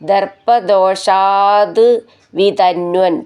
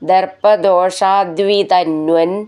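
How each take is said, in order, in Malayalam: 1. വാക്കുകൾ ഇടവേള നൽകി വേർതിരിച്ചാണ് പറയുന്നത്. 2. വാക്കുകൾ ഒന്നായി ചേർത്താണ് പറയുന്നത്.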